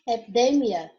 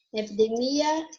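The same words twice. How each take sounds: First: Epidemia with the stress on DE. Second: Epidemia with the stress on MI. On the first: Teacher gives the Spanish take, stress on DE in epidemia. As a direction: say epidemia as epiDEmia, falling. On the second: Teacher gives the Portuguese take, stress on MI in Epidemia. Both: Shown as a demonstration. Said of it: "porque vai mudar a sílaba tônica".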